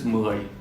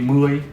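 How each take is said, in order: First: The word is said at a slightly lower pitch. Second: The word is said at a higher, level pitch. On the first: "With this, it's mười, just a little bit lower" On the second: "Without this"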